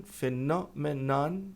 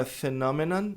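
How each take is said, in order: First: Drawn-out careful "phenomenon"; slow model word. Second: Said in the usual way. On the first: Shown as a demonstration. Teacher repeats "phenomenon" slowly for the students. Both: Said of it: "Fenômeno é phenomenon".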